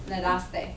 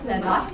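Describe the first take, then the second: First: The voice falls at the end like a statement. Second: The voice rises at the end like a question.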